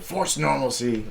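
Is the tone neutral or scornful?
scornful. It is said in a mocking, scornful tone. The phrase is meant as an insult. "Like I was saying it like that"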